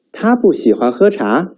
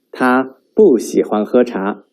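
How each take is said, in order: First: 他不喜欢喝茶 asked, pitch raised toward 茶; questioning rise on 他不喜欢喝茶; rising question tune. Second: 他不喜欢喝茶 stated, pitch falling on 茶; falling statement tune. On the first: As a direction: lift the end of 喝茶 like a question. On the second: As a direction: settle 喝茶 down flatly. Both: Shown as a demonstration. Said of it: "distinguish the intonations".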